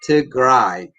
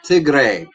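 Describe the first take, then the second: First: The last syllable rhymes with 'eye'. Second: The last syllable rhymes with 'day'. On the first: The speaker calls it right. "R A Y is pronounced as Rai" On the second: The speaker calls it wrong. "it's not Tigray"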